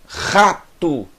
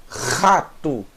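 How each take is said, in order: Both takes have the same delivery.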